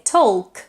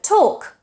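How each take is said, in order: First: "talk" with the l sounded, like "tolk"; pronounced L. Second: "talk" with no l, like "tawk"; English "talk", vowel straight into k; silent L. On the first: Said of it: "talk with an L". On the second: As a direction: leave the l out of "talk". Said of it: "The L is silent". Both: Shown as a demonstration.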